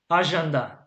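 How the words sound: The word is pronounced the French way.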